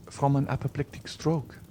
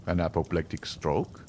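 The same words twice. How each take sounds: First: A touch higher, simply stating "apoplectic stroke"; young woman states "apoplectic stroke", no question; young woman's answer. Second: Lower, questioning "An apoplectic stroke?" with a rise; doctor's rising question on "An apoplectic stroke?"; doctor repeating. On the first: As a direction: tell him "From an apoplectic stroke" plainly. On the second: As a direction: echo "apoplectic stroke" back in mild disbelief. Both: A narrator's reading. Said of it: "repeated the doctor".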